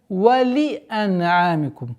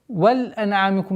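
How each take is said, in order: First: The vowel after the l is fully pronounced. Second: The vowel after the l is dropped. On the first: The speaker calls it right. "Огласовка касра под буквой лям нужно договорить до конца" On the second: The speaker calls it wrong. "нет"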